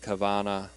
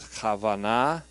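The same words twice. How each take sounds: First: The word is pronounced the English way. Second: The word is pronounced the Hebrew way. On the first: "I've also heard a more anglicized Kavanah"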